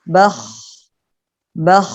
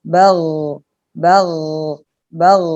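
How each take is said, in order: First: Bakh ending in a released hiss of breath; breathy sukun kh. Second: Bagh ending in a voiced gh with no breath; voiced sukun gh. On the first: Teacher contrasting sukun kha with ghain, breathy final kh. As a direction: end bakh with only breath. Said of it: "tinggal nafasnya saja yang terlepas". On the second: Teacher contrasting sukun ghain with kha, voiced final gh. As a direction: end bagh with voice only. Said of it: "tinggal suaranya yang terdengar". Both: Shown as a demonstration.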